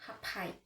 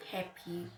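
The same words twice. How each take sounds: First: "happy" with the weight on the second syllable; wrongly stressed second syllable. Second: "happy" with the first syllable stronger; stress on first syllable. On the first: Teacher shows learners what not to say, "happy" stressed on the end. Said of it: "not happy". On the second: Teacher shows learners how we pronounce it, "happy" stressed on HAP. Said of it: "We pronounce it happy". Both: Shown as a demonstration.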